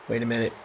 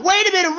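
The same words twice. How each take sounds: First: Low, soft, suspicious; hushed commentator double take; hushed wait. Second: High and loud, almost a scream; frantic commentator shout; shouted wait. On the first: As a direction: lean in and drop the voice. Commentator spots something. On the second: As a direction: yell it in frenzy. Near fall frenzy. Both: Acted.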